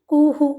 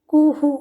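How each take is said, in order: The two takes are said the same way.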